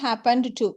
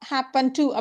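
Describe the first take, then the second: First: The -ed ending is pronounced before to. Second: The -ed ending merges into to. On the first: "இடி சேர்த்து" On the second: "pronunciation பார்த்தீங்கன்னா ஹேப்பன் டு அப்படி தான் வரும்"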